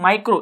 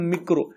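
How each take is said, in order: First: The first vowel sounds like 'eye'. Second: The first vowel sounds like 'ee'.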